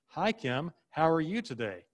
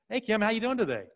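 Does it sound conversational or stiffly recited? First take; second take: recited; conversational. First: It sounds stiff, like something read or rehearsed. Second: It sounds relaxed, like natural one-on-one talk.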